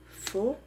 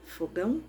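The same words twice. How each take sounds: First: "Fogão" split into fo and gão with a long pause; syllable by syllable. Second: Said in the usual way. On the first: Shown as a demonstration. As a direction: clap out "Fogão" as two separate sounds. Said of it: "Eu pronunciei dois sons". ("Fogão" separado em duas sílabas, fo, gão) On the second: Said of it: "Vamos pegar outra palavra?".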